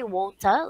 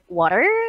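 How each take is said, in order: First: It is said in a non-American accent. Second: It is said in an American accent. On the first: "it's okay to say water. ... that's another accent" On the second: "if you want American accent, you could say water"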